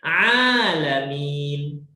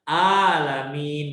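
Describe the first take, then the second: First: It starts with a pressed, squeezed throat sound. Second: It starts with a light glottal catch. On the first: "dengan alamin" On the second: "Kita bunyikan hamzah alamin"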